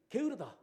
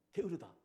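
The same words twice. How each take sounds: First: "게으르다" spat out louder with a falling end; mock pharaoh jeering "게으르다"; scornful pharaoh. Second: Said in the usual way. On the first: Pharaoh scolding the lazy slaves, "게으르다" barked louder. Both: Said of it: "화가 났죠".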